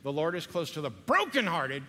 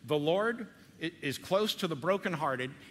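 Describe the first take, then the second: First: The word brokenhearted is strongly emphasized. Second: The sentence is read without special emphasis on brokenhearted.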